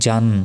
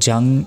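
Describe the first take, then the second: First: The syllable ends with a clear n. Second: The syllable ends with a nasal ng. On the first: The speaker calls it right. "দন্ত নর উচ্চারণ" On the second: The speaker calls it wrong. "এখানেও হবে না"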